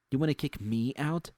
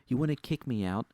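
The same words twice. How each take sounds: First: WANNA hit hard, line ends on a sharp upward question; rising angry challenge. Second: WANNA leaned on, heated and daring; angry challenge. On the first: Narrator repeating his dare to boss Susie, heated and rising. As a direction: repeat it higher, "wanna" punched, mocking disbelief. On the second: Narrator daring boss Susie to fire him, angry. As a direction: throw "wanna" at her like a dare. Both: A narrator's reading.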